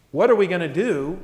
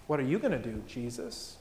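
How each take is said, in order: First: Full-voiced question with weight on "we"; fretting question. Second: Low, soft question put to Jesus; trusting question. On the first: People faced with a problem, fretting question. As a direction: ask it openly, as a shared problem. Worried question set against trusting one. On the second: Acted. Believer handing the problem to Jesus, trusting question. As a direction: drop the voice and hand it over gently.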